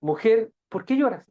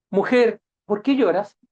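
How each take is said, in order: First: Gentle question. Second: The question asked louder and firmer. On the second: Jesus asks Mary at the tomb, firm and louder. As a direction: press the weeping woman with a firm ask. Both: Shown as a demonstration. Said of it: "La misma pregunta".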